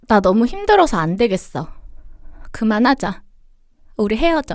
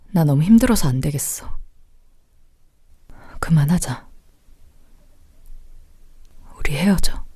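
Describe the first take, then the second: First: The voice sounds whiny and childish, like sulking. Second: The voice sounds serious, heavy and bitter. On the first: It sounds like a sulk that candy could fix. "두 번째 하신 목소리에서 사탕을 사줘야 되나?" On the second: The breakup feels real and final. "첫 번째 목소리가 어, 어, 되게 확 꽂히네요, 가슴 안에"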